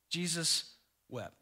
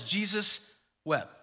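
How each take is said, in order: First: Quiet, grave scripture reading; hushed solemnity. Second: Said in the usual way. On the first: Real, not acted. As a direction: let the two words fall gently. First, solemn reading of verse.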